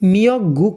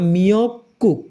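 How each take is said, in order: First: The second syllable starts with a soft g. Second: The second syllable starts with a tense k. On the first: The speaker calls it wrong. "মিয়ক গুক না" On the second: The speaker calls it right. "উপরের গিয়কটা সাংগিয়কের উচ্চারণ হবে"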